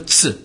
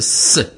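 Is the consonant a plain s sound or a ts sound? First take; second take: ts; plain s. First: The consonant sounds like t and s together. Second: The consonant is a single hissing s sound. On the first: The speaker calls it wrong. "זה לא צ" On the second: The speaker calls it right. "אלא זה ס"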